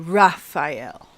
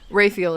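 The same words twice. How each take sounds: First: The name is said in a fancy, British-sounding way. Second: The name is said in a plain, everyday way. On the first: "they made it sound fancy ... more of like a British way to say it" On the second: "is more like a legit way to say it"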